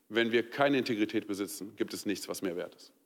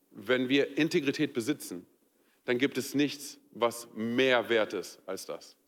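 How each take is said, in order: First: "keine" marks the contrast as the voice drops much lower and softer, fading to a near hush on "mehr wert ist"; stress on keine. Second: "mehr" drawn out slowly and weighted, the phrase slowing to a crawl; stress on mehr. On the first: Pastor contrasts the second take for the congregation, low and fading. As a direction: sink low and soft, let the line fade away. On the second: Pastor shows the congregation the stress, slow weight on "mehr". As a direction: lean into "mehr", say it slow and heavy. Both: Shown as a demonstration. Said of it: "hör mal ganz kurz auf die Betonung".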